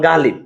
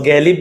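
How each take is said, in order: First: The first vowel is an open 'a' sound. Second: The first vowel is a front 'ae' sound. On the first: The speaker calls it right. "আকারটা আয় থাকে" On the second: The speaker calls it wrong. "গ্যালিব না"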